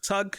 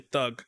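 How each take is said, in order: First: The word begins with a plain t sound. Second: The word begins with a th sound. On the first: "So it's like tug" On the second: "we would say thug"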